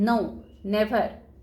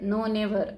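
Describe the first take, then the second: First: It is said with strong stress. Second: It is said flatly, without strong stress. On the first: The speaker calls it right. "या पद्धतीने आपल्याला stress त्यावर द्यावा लागतो" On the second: The speaker calls it wrong. "नो never असं नाही म्हणतात"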